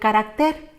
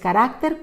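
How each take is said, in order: First: The stress is on the last syllable. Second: The stress is on the second syllable. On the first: The speaker calls it wrong. "aparece sin tilde ... su pronunciación sería" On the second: The speaker calls it right. "la opción correcta es"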